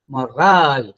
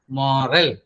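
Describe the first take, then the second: First: The stress is on the second syllable. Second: The stress is on the first syllable. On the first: It is the word spelled M O R A L E. "then you stress the second syllable" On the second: It is the word spelled M O R A L. "more, that is the first syllable, that is stressed"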